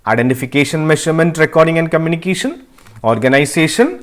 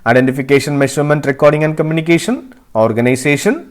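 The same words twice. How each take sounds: Both takes have the same delivery.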